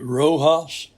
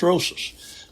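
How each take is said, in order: First: The middle consonant is not an s sound. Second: The middle consonant is an s sound. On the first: The speaker calls it wrong. "I had pronounced it Rojas several weeks back, and Hans Lemmerman told me that was wrong" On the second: The speaker calls it right. "And he said it's Rosas"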